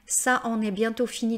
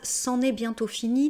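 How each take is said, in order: First: Ça is said in full before en. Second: Ça is contracted before en. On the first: "vous n'êtes pas obligé de faire cette élision" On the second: "une élision"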